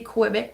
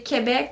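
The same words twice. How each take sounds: First: The name is said with an English pronunciation. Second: The name is said with a French pronunciation. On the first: "the English people in Canada say Quebec normally" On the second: "in French we say Quebec"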